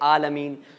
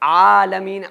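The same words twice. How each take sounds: First: The first vowel is short and plain. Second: The first vowel is long with a throat sound. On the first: The speaker calls it wrong. "बाज़ लोग पढ़ लेते हैं आलमीन, तो आलमीन नहीं है" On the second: The speaker calls it right. "आइन के ऊपर खड़ा ज़बर भी है"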